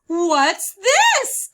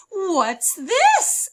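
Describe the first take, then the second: First: Loud high surprised "What's this?"; a little boy finding a new book; eager child voice; curious question. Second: High, loud surprised "What's this?"; a girl discovering something odd; wide-eyed child asking; curious question. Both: Acted.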